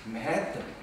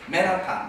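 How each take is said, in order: First: One syllable carries a strong English-style stress. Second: All syllables are said evenly, without strong stress. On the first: The speaker calls it right. "맨해의 액센트를 줘야지" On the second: The speaker calls it wrong. "우리 한국 사람 얘기하면 맨하탄"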